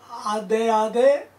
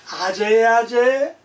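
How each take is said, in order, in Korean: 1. 두 번째 음절은 d 소리로 시작해요. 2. 두 번째 음절은 j 소리로 시작해요. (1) "원래는 아데아데 ... 로 발음을 했어요" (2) "요게 제자로 발음이 달라진 거예요"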